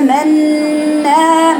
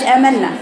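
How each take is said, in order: First: آمنا chanted very slowly, the نّ held long and nasal; with nasal ghunna. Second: آمنا said quickly, the ن clipped short; the wrong آمنا with no nasal hold; without ghunna. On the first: Teacher shows the students the held ghunna. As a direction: hold the ghunna in آمنا for two beats. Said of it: "ما عندهم غنن". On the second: Teacher shows what students do wrong. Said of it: "مش آمنا". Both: Shown as a demonstration.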